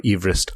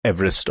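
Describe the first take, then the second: First: "Everest" as EEV-rist, long ee; original pronunciation. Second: Said in the usual way. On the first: Shown as a demonstration. Host giving the alternative name, "Everest" said EEV-rist. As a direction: say "Everest" with "eve" at the start. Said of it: "his name was pronounced Everest". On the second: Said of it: "the modern pronunciation is Everest".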